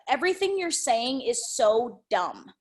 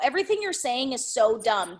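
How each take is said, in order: First: The line ends firmly as a finished statement. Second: The line trails off as if more follows. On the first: The point is made and complete. The speaker calls it right. "That also needs to be a statement" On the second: The thought seems unfinished. The speaker calls it wrong. "I thought there was more to it, meaning it didn't land"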